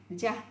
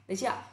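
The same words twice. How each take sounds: The two takes are said the same way.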